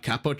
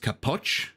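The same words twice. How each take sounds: First: The stress is on the first syllable. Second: The stress is on the second syllable. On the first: The speaker calls it wrong. "It's not Capoch" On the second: The speaker calls it right. "The emphasis is on the second syllable"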